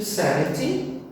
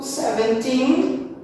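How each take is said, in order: First: "seventy" with the first syllable stressed; SEV-enty, front-stressed. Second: Put-on "seventeen" slow, higher, rising onto TEEN; seven-TEEN, end-stressed. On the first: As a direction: hit the start of "seventy", short ending. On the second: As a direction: stretch the last syllable of "seventeen". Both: Shown as a demonstration. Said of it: "sempre lembrando de diferenciar qual que é a stressed".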